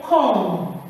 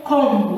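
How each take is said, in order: First: "comb" drawn out, ending on M; correct silent B. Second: "comb" drawn out with a final B sound; wrong pronounced B. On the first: Teacher correcting the class, "comb" with silent B. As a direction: stretch "comb" and leave the B silent. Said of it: "We say comb". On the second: Teacher warning the class, "comb" with audible B. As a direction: release a B after the M in "comb". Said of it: "don't say comb". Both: Shown as a demonstration.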